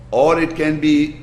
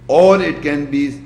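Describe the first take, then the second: No difference in how they are said.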